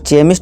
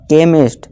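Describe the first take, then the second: First: The word begins with a ch sound. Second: The word begins with a k sound. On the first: The speaker calls it wrong. "यहाँ चेमिस्ट नहीं पढ़ेंगे" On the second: The speaker calls it right. "यहाँ का का ध्वनि निकलेगी"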